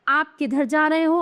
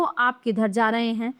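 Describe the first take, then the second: First: "रहे हो" held up in pitch; "हो" prominent, tune left open; wrong example. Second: "रहे हैं" settled low; correct example. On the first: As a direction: leave "रहे हो" hanging. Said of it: "ये तो अशुद्ध वाक्य हैं". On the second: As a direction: state "आप" firmly, then drop the tune. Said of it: "ये शुद्ध हैं". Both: Shown as a demonstration.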